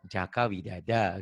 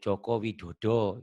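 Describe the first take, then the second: First: The vowels are pronounced as a sounds. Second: The vowels are pronounced as o sounds. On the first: This is the Sundanese way. "Kayak orang Sunda" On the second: This is the Javanese way. "Jawa O gitu ya"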